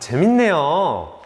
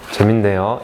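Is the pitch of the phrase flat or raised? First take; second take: raised; flat. First: The pitch goes up and sounds lively. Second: The pitch stays flat and low. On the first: The listener sounds genuinely interested. The speaker calls it right. "이렇게 말투가 올라가야 되죠. 어조가" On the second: The listener sounds uninterested. The speaker calls it wrong. "이게 아니에요"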